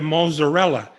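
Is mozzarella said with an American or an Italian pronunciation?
American. The word is said with an American pronunciation. The speaker is an outsider to the culture. The speaker calls it wrong. "You can't say there"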